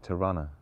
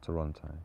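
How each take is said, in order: First: It is said the way locals say it. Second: It is said the way outsiders say it. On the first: This is how people from the city say it. The speaker calls it right. "You're supposed to say Toronto" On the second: This is how people from elsewhere say it. The speaker calls it wrong. "not Toronto"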